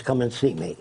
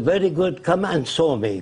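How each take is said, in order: First: Said in the usual way. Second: Lightly imitated Arab-accented English. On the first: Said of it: "means come and see me". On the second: Arab leader inviting the caller over, in an Arab accent. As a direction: retell it in a mild Arab accent. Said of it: "He said in his accent".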